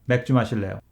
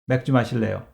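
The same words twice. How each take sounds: Both takes have the same delivery.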